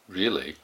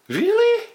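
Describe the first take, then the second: First: It is said in a skeptical, doubting way. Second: It is said in a happy, delighted way. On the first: The listener doubts the news is true. "if you're skeptical, you could go like" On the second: The listener is pleased by good news. "when the news is really good and you're really happy"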